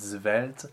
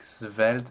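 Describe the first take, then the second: First: The first consonant is a frank, fully voiced z. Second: The first consonant is a frank, voiceless s. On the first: "draw a little bit too much attention to the initial consonant" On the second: "draw a little bit too much attention to the initial consonant"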